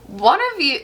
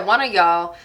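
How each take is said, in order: First: Said in the usual way. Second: Casual Southern "y'all"; Southern accent. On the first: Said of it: "I'm gonna say". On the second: Real, not acted. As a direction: let a light Southern accent slip out. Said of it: "I keep wanting to talk with an accent".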